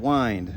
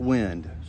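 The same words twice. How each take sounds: First: The vowel is long, as in 'wine'. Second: The vowel is short, as in 'win'. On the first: The speaker calls it right. "they pronounce it wind" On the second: The speaker calls it wrong. "not wind"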